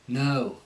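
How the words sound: The O vowel starts with an uh sound. "with the Cockney, what will happen is there'll be like an uh"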